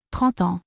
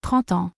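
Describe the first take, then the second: No difference in how they are said.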